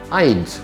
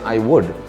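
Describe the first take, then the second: First: The words are joined into one contracted syllable. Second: Both words are said in full. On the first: The speaker calls it right. "that breaks it into a contraction" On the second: The speaker calls it wrong. "instead of even saying I would"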